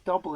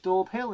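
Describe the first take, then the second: First: It is said as one short word, dobble. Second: It is said as two clear words, daub hill. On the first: This is how the locals say it. The speaker calls it right. "locals pronouncing it as Dobble" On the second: This is how an outsider assumed it was said. The speaker calls it wrong. "I always thought it was Daub Hill"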